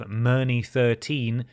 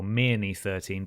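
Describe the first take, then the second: First: "Myrny" said with an er vowel, MUR-nee; first guess pronunciation. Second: "Mirny" said with an ear vowel, MEER-nee; alternative pronunciation. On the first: Reader guessing at a town's name, "Myrny" as MUR-nee. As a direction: say "Myrny" to rhyme with journey. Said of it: "or Mirny thirteen, perhaps". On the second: Reader offering another guess at a town's name, "Mirny" as MEER-nee. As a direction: say "Mirny" starting like mere. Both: Shown as a demonstration.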